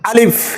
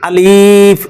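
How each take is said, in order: First: The word is said short and quick. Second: The vowel is stretched out long. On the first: The speaker calls it right. "এটা পড়তে হবে দ্রুত।" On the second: The speaker calls it wrong. "অনেকে আলিফ এভাবে টেনে পড়ে, এভাবে পড়লে ভুল হবে"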